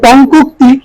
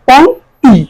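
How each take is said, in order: First: A vowel is heard between the two k sounds. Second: No vowel is heard between the two k sounds. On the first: The speaker calls it wrong. "আমরা উচ্চারণ করে পংকুক্তি" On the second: The speaker calls it right. "কিন্তু এটা হবে উচ্চারণ পংক্তি"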